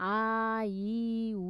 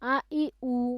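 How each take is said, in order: First: The vowels are stretched out and said slowly. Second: The vowels are short and said quickly. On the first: The speaker calls it wrong. "এরকম করে টান দিয়ে দিয়ে দেরি করে পড়া যাবে না" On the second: The speaker calls it right. "দেখছেন আমরা দ্রুত পড়ছি"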